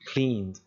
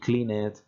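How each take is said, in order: First: The ending is a bare d sound, no syllable. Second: The ending is said as an extra syllable. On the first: The speaker calls it right. "no le añado una sílaba extra" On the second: The speaker calls it wrong. "ni clean it"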